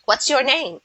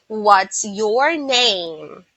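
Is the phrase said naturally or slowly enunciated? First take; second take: natural; slowly enunciated. First: The phrase is said at a natural, connected pace. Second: The phrase is said slowly with each word enunciated. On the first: The speaker calls it right. "so that's how I do it. Like" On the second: The speaker calls it wrong. "I don't say"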